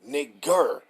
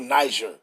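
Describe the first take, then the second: First: The g is hard, like in go. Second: The g is soft, like a j sound. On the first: The speaker calls it right. "You know it's pronounced G" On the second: The speaker calls it wrong. "That's how the French will pronounce a word. They they G's they pronounce jer"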